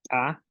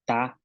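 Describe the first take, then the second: First: "ta" with an ejective t; glottalised T. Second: Said in the usual way. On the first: Shown as a demonstration. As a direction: pop the t of "ta" with closed glottis. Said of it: "consonantes que tienen glotal". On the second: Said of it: "que no tienen glotal".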